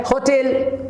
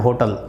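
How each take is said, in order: First: "होटल" as ho-TEL, clear e; careful, higher "होटल" with stressed TEL; "होटल" ending in a full "tel"; correct pronunciation. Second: "होटल" as HO-tul, weak second syllable; low, casual "होटल" as HO-tul; "होटल" the everyday way, pure o; common mispronunciation. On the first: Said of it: "pronunciation कहती है". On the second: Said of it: "आप बहुत बार कहते हैं". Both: Shown as a demonstration.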